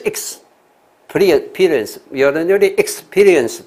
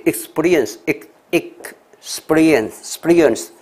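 First: "experience" miscut as iks-PEE-rience, PEE loud and high; wrong pronunciation demo. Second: "experience" broken slowly into ik, then SPEE-rience; separated sounds demo. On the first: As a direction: exaggerate the learner's heavy PEE in "experience". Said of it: "有人就念experience就错了". (夸张模仿念错的 experience：iks-PEE-rience) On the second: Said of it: "是没有那么重音". (慢慢分开示范 experience：ik-spee-rience) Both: Shown as a demonstration.

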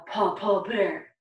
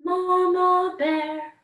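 First: Papa Bear voice. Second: Higher, louder, slow Mama Bear. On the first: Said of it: "That's the voice we wanna use". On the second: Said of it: "is our Mama Bear voice". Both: Shown as a demonstration.

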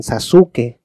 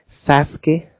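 First: Sasuke as slow "sa-SU-ke", stressed U; Latin American mispronunciation. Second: Sasuke as slow, voiced "SAS-ke"; Latin American mispronunciation. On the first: Teacher showing another Latin American version, mispronunciation. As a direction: say Sasuke in three syllables, stressing SU. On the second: Teacher showing how Latin America says it, mispronunciation. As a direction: say Sasuke in two full syllables, SAS-ke. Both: Shown as a demonstration. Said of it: "no lo están pronunciando correctamente".

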